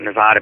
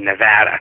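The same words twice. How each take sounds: First: The middle vowel is a broad 'ah' sound. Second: The middle vowel is a flat 'a' sound. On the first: The speaker calls it wrong. "I call it Nevada" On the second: The speaker calls it right. "It's a flat A"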